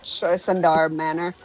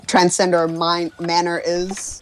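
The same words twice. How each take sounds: First: Tressendar Manor said TRESS-en-dar; corrected name. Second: Transcender Mine-, Manor said as TRAN-sen-der; mispronounced name. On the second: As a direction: Transcender Manor, wrong first syllables. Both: Retold or imitated.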